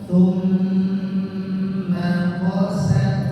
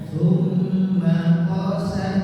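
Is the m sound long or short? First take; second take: long; short. First: The m sound is held long. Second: The m sound is short, not held. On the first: The speaker calls it right. "mim tasydid ini ditahan dulu" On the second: The speaker calls it wrong.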